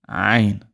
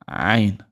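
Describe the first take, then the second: Both takes have the same delivery.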